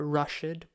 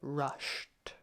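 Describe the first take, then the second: First: The ending does not blend straight into T. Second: The ending blends straight into a T sound. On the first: The speaker calls it wrong. "not rushed" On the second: The speaker calls it right. "but rushed"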